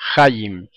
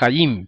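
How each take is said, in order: First: The stress is on the first syllable. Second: The stress is on the last syllable. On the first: The speaker calls it wrong. "pronuncian como palabra llana y dicen hayim" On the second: The speaker calls it right. "lo más correcto es hayim"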